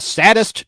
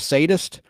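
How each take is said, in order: First: The word is pronounced in an unusual way. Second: The word is pronounced in the standard way. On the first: The speaker calls it wrong. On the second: The speaker calls it right.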